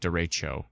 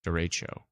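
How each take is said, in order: Both takes have the same delivery.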